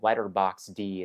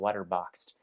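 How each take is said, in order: First: The final D is said as a separate letter. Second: The final D blends in like 'letterboxed'. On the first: The speaker calls it wrong. "give my friends a hard time for saying letterbox D" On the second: The speaker calls it right. "instead of"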